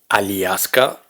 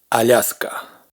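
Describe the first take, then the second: First: A separate i vowel follows the l. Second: A soft l runs straight into a. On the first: The speaker calls it wrong. "ni Aliaska" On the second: The speaker calls it right. "sino Alaska"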